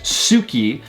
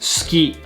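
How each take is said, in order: First: The u vowel after the s is clearly heard. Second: The u vowel after the s is dropped. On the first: The speaker calls it wrong. "we don't pronounce it as suki" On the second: The speaker calls it right. "we pronounce it as ski, almost like we drop the U sound"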